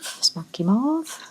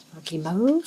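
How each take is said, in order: First: "mauve" with a short open o, like mov; slow, higher take with "mauve" as mov; "mauve" with a short o, rhyming with "of"; mauve other way. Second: "mauve" with a long o, rhyming with cove; "mauve" like mohv, long o; mauve said plainly. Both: Shown as a demonstration. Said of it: "However you like to say it".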